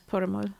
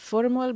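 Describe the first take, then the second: First: The name begins with a p sound. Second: The name begins with an f sound. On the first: "the Pashto pronunciation is Purmul" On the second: "sometimes they say it's Furmul"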